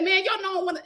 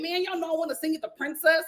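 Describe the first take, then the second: First: Light mock L A accent, a bit higher. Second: Second try at a lightly mocked L A accent. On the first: Telling mom how [name] sounded, light mock L A accent. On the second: Retelling [name]'s words, a mild L A accent. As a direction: lean into an L A lilt, trying. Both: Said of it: "in that, um, L A accent".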